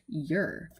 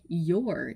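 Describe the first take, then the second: First: The vowel is reduced to an 'er' sound. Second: The vowel is a full 'or' sound. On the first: This is the current pronunciation. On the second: This is the older pronunciation.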